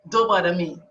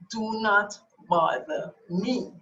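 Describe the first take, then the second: First: The phrase is spoken at a normal pace. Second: The phrase is spoken slowly and deliberately.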